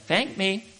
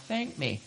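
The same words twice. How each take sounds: First: Higher voice of God, brief command; God's voice speaking after the frustrated homecoming, higher; inner voice. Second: Much softer, still small voice; whisper of God. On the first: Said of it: "that little voice inside saying". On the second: God's still small voice after the door opens, soft. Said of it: "that was the whisper of God". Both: Retold or imitated.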